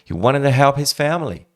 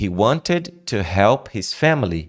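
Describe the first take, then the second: First: The words run together with reduced sounds. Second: Each word is said clearly and separately. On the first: This is what a native speaker actually says. "e você escuta" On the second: This is what the listener expects to hear. "você está esperando ouvir"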